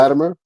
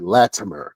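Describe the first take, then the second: First: The middle T sounds soft, almost like D. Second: The middle T is pronounced crisply and clearly. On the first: "almost sounds like a D" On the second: "sometimes I have to pronounce it, pronunciate it"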